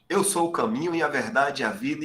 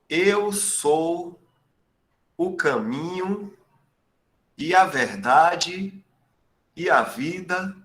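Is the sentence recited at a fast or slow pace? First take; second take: fast; slow. First: It is recited at a noticeably faster pace. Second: It is recited at a slower, ordinary pace.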